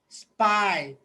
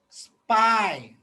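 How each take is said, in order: First: The s and p are joined directly. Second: The s and p are joined directly.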